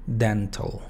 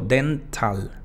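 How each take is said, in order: First: The last syllable has a reduced vowel. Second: The last syllable has a full vowel. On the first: The speaker calls it right. "Simplemente la T y la L" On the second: The speaker calls it wrong. "no digo dental ni dental"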